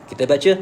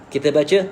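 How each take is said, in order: No difference in how they are said.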